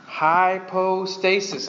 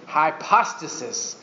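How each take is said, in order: First: Hypostasis, the English way, slow, with a long o: hy-PO-stasis; English reading. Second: Hypostasis, the Greek way, slow: hy-POS-ta-sis with a short a; Greek pronunciation. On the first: Teacher sounding out hypostasis slowly for the class. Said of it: "I'm just giving you the English one". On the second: Preacher giving the Greek form of hypostasis. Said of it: "Or with the little accent". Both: Shown as a demonstration.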